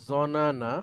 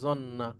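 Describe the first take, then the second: First: The two n sounds are said separately with a vowel. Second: The two n sounds merge into one doubled n. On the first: The speaker calls it wrong. "মূলত এই ভার্বটা ছিল এরকম" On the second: The speaker calls it right. "তাসদিদ দিয়ে যদি এভাবে দেই তাহলে এটা হয়ে যাচ্ছে"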